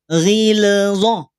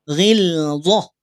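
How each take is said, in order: First: The L sound carries an extra bouncing echo. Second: The L sound ends cleanly without any bounce. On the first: The speaker calls it wrong. "tidak ghilzah" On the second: The speaker calls it right. "awas jangan sampai ada pantulan"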